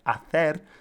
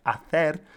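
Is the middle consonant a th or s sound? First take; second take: th; th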